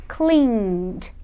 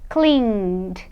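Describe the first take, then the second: Both takes have the same delivery.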